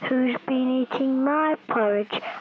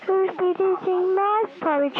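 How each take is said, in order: First: It is said in a heavier, bigger voice. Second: It is said in a very light voice.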